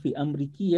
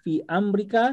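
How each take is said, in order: First: The word ends with an 'i' vowel. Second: The word ends with an 'a' vowel. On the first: The speaker calls it wrong. "bukan fi Amriki" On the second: The speaker calls it right. "Amrika fi Amrika"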